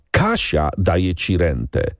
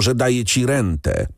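First: "Kasia" stressed, slow and falling. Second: "daje" stressed, falling at the end. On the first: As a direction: hit the word "Kasia", slowly. (akcent na "Kasia", wolno) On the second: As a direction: hit the word "daje" angrily. (akcent na "daje") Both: A narrator's reading. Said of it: "Hrabia wpadł w furię".

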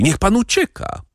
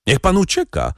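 First: Even higher, rising plea, „pan” lifted; urgent call. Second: Much higher urgent cry, stress on pan; urgent call. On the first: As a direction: plead with him to run. (wyższe, błagalne wołanie z „pan” uniesionym) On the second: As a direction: urge him to flee now. (pilne wołanie, nacisk na „pan”) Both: A narrator's reading. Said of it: "zawołała panna Darmilly".

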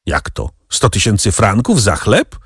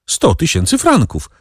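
First: Rising question on "Sto tysięcy franków za chleb"; incredulous question. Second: "Sto tysięcy franków" high, falling at the end; confirming. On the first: Captive questioning the price of bread, incredulous question, "chleb" rising. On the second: Pepino confirming the price, "franków" falling, confirming. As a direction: confirm it, letting "franków" drop. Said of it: "potwierdził Pepino". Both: A narrator's reading.

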